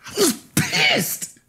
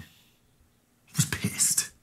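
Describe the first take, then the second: First: Much higher, slow, anguished cry; pissed cried out high after the whisper; outburst. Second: Very slow, breathy whisper; muttered under the breath, barely voiced; whispered admission. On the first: Acted. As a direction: let the anger finally break out. Admitting anger, repeated louder. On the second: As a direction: breathe it out before the outburst. Admitting anger, then repeating it.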